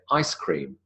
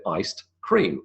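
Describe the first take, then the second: First: "ice cream" run together with no T or D; D elided. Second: "iced" with final T-sound released before "cream", slowly; old full form. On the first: Lecturer showing what we now say, elided "ice cream". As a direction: glide from "ice" straight into "cream". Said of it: "we would elide the D". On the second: Lecturer quoting the original name, fully sounded "iced cream". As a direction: keep "iced" and "cream" as two slow, separate words. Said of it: "people said iced cream". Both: Shown as a demonstration.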